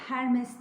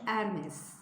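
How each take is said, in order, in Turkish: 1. Baştaki H sesi okunur. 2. Baştaki H sesi okunmaz. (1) "değil" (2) "Fransızca'da H okunmadığı için"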